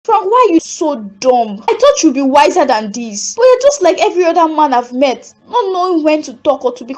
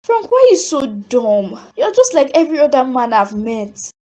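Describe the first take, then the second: First: Scornful scolding. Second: Distant, replayed memory of her own words; remembered echo. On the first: Acted. Sophie scolding Frank for proposing, exasperated and rising. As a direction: tear into him for being so foolish. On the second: Sophie hearing her harsh words to Frank again, distant echo. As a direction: let it sound like a far-off echo in her head.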